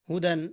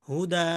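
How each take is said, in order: First: The word ends with an n sound. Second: The word ends with a long drawn-out vowel. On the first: The word is read in continuous recitation. "দাল ইয়া দুই জবর দান" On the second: The reciter stops on the word. "অক্ষ করার কারণে কি হবে?"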